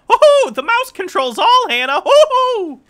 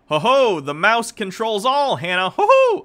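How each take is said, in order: First: It is said in a Mickey Mouse voice. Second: It is said in the speaker's normal voice.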